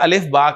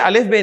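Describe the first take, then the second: First: The second name ends in an 'ah' vowel. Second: The second name ends in an 'ay' vowel. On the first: This is the Arabic way of naming the letters. The speaker calls it right. "बल्कि अलिफ बा कहा जाता है" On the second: This is the Urdu way of naming the letters. The speaker calls it wrong. "अरबी में इन्हें अलिफ बे नहीं कहा जाता"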